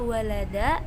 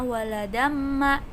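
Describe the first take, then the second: First: The word stops on a lengthened final a vowel. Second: The ending runs straight into the next m sound. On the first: "ketika kalian ingin dibaca wakof, maka walada" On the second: "kalau kalian ingin membacanya terus, maka jadinya waladamma ya"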